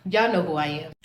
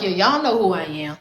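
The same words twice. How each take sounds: First: Sarcastic. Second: Lower, dry sarcastic jab. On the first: Repeating the jab to the clerk, softer and low. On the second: Joking sarcastically to the booking clerk, dry and low. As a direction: make light of it with sarcasm. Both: Retold or imitated. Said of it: "So I'm being sarcastic".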